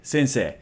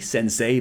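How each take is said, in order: First: The last vowel is a long 'e'. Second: The last vowel is an 'ay' glide. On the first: The speaker calls it right. "it's actually a long E" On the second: The speaker calls it wrong. "some people would say sensei"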